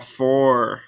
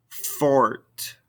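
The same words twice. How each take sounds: First: "Fort" ending on the R; silent final T. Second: "Fort" closed on a released T; sounded final T. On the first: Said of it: "these ending consonants". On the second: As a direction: let the T of "Fort" be heard. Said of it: "makes us pronounce those ending consonants". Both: Shown as a demonstration.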